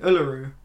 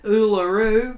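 First: Uluru in an English accent, lower, tune not lifted; low, plain English-accented Uluru. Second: Uluru in an Australian accent, pitched up with a rising end; broad-strokes Australian take on Uluru. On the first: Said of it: "if you say it in an English accent". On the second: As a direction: say Uluru like an Australian, higher, tune lifting. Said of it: "sort of say it in an Australian accent". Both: Shown as a demonstration.

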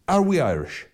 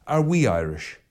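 First: Are hit high and loud, then falling; ARE we Irish, pushed up high; stress on ARE. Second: We leaned on, are and Irish lighter; WE Irish, who exactly; stress on WE. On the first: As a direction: punch are, questioning if we truly are. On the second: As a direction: put the weight on we. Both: Shown as a demonstration.

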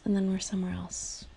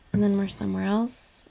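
First: Breathy whisper of the repeat. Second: Said in the usual way. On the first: Real, not acted. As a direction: let the repeat fade to a whisper. Repeats phrase, second fades.

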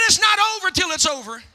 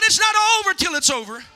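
First: Said in the usual way. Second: Loud, fast preacher's shout; belted, quick-fire rallying cry. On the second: Shown as a demonstration. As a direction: shout it out to rouse the congregation. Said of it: "Come on, shout".

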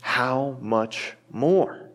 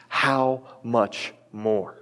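First: Very slow, lingering question on "more"; slow emphasis. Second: Very slow, falling, weighty "How much more?"; slow emphasis. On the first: Acted. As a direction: hold "How much more?" slowly, rising on "more". Repeated key phrase. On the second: Shown as a demonstration. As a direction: lay "How much more?" down slowly and firmly. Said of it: "underline that little phrase".

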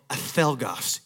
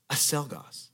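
First: "acelgas" with a th sound for the c; Castilian pronunciation. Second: "acelgas" with an s sound for the c; Panamanian pronunciation. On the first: Spanish waiter corrects a Panamanian diner, "acelgas" with a th sound. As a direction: lisp the c in "acelgas" as in Spain. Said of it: "until you can pronounce it right". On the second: Panamanian diner repeats his order to a waiter, "acelgas" with an s sound. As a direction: say "acelgas" the Latin American way, with an s. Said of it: "the way he pronounced certain things". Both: Acted.

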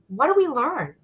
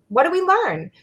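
First: Said in the usual way. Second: "learn" pitched high and leaned on; stress on learn. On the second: Shown as a demonstration. Repeating the question to the listeners, stressing learn. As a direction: ask "What do we learn?" again, hitting learn.

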